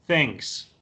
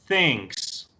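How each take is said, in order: No difference in how they are said.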